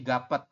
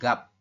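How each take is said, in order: First: Every written letter is sounded, giving two syllables. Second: The final letter is dropped, giving one syllable. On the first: The speaker calls it wrong. "kalau misalkan Anda belum paham" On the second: The speaker calls it right. "Hanya gap"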